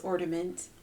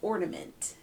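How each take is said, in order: First: The middle n sound is not clearly pronounced. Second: The middle n sound is clearly pronounced. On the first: The speaker calls it wrong. "I say Christmas ornament" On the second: The speaker calls it right. "it's ornament, because it's an N"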